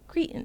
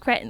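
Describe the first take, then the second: First: It is said with an American pronunciation. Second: It is said with a British pronunciation. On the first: "we pronounce it cre- cretin" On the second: "that's how he would say it"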